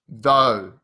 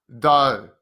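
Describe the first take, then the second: Both takes have the same delivery.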